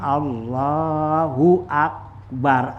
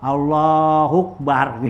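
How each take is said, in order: First: The hamza of akbar is clearly pronounced, separately. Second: Akbar runs straight on from Allahu without hamza. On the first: The speaker calls it right. "Jadi kita ucapin Allahu akbar, ada akbar" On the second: The speaker calls it wrong. "nggak boleh kita sambung"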